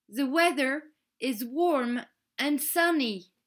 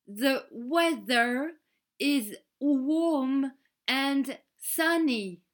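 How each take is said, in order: First: Said in the usual way. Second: Spoken very slowly, word by word; "The weather is warm and sunny" drawn out slowly for learners. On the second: Shown as a demonstration. Kelly to French pupils, spelling it out very slowly. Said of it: "Très lentement, pour nous aider à comprendre".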